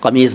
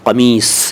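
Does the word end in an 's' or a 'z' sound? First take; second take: z; s. First: The word ends with a 'z' sound. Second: The word ends with an 's' sound. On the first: The speaker calls it wrong. "कमीज़ नहीं" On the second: The speaker calls it right. "सही शब्द है कमीस"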